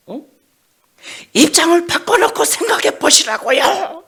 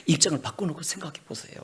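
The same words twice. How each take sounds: First: 바꿔놓고 shouted much higher and louder, rising; angry demand. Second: Said in the usual way. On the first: Acted. Jonah yelling at God to trade places. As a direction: yell it as an indignant demand.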